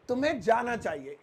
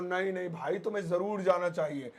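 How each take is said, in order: First: Said in the usual way. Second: Insist, leaning on जरूर; forceful insistence. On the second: Shown as a demonstration. Teacher showing a friend being pushed, जरूर stressed. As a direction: stress on जरूर, pressed hard and firm. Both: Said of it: "इसको मैं जोर देकर कहूँ".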